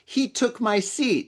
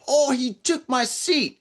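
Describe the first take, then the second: First: It is said in the speaker's normal accent. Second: It is said in a put-on foreign accent.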